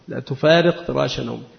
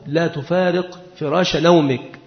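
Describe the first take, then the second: First: It is said in a scolding, reproachful tone. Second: It is said in a gentle, caring tone. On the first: The listener's peers are getting ahead while he sleeps. "متى تكون للتوبيخ؟ ... يعني أصحابك يسبقونك" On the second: The listener needs rest and moving would harm him. "إذا كان مريضا فتقول له لا تفارق فراش نومك، إذا كان المخاطب محتاجا إلى الراحة"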